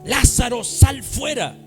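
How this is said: It is said loudly, with commanding authority.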